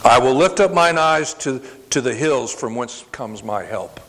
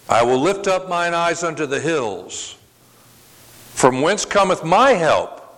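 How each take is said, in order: First: It runs on without a break after hills. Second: It breaks after hills, then asks a question.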